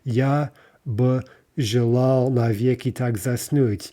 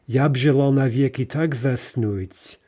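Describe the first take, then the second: First: 'By' is a separate syllable with its vowel. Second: 'B' merges onto 'ya' with no vowel. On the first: The speaker calls it wrong. "which again would introduce a vowel, an extra syllable" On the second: The speaker calls it right. "we need to pretend that ya and ba ... are a single word phonetically, and we say yab"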